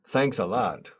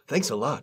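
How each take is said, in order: First: It is said with a sarcastic tone. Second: It is said with a warm, sincere tone. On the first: The speaker is not actually grateful. "we often use thanks a lot when we say thank you in a sarcastic way" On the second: The speaker is truly grateful. "I really appreciate what you did"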